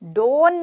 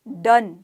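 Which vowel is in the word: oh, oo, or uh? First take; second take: oh; uh. First: The vowel sounds like a long 'oh'. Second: The vowel sounds like a short 'uh'. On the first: The speaker calls it wrong. "डोन नहीं बोला हमने" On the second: The speaker calls it right. "यहाँ पर ओ जो है वो अ का रूप धारण कर रहा है"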